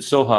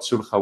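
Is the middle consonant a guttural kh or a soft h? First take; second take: soft h; guttural kh. First: The middle consonant is a soft breathy h. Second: The middle consonant is a raspy throat kh. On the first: "you pronounced it sulha" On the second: "we call it sulha with the kha"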